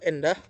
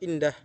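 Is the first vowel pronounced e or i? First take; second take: e; i. First: The first vowel is pronounced as e. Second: The first vowel is pronounced as i. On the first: The speaker calls it wrong. "fonem i diucapkan menjadi e. Yang salah" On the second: The speaker calls it right. "yang benar adalah"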